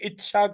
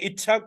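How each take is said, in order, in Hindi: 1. बीच का व्यंजन 'sh' ध्वनि है। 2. बीच का व्यंजन 'ch' ध्वनि है।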